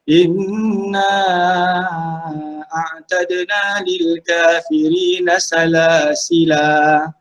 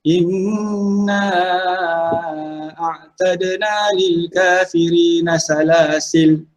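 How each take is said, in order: First: The last word ends on a long a vowel. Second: The last word ends on a silent l. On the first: "kita berhenti dengan alif dulu" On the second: "diberhentikan dengan dengan mematikan huruf lam itu saja"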